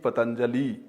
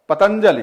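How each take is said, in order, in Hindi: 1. नाम में एक स्वर दीर्घ उच्चारित होता है। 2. नाम में स्वर ह्रस्व रखे जाते हैं। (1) "दीर्घ इकार का उच्चारण करेंगे" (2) "जबकि दीर्घोकार वहां पर है नहीं"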